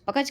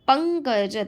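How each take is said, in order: First: The first syllable has no nasal sound. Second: The first syllable has a nasal sound. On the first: The speaker calls it wrong. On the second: The speaker calls it right.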